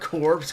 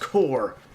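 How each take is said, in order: First: The word sounds like corpse, with final sounds. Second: The word sounds like core, without final sounds. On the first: The speaker calls it wrong. "not Corpse" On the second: The speaker calls it right. "it's pronounced Corps"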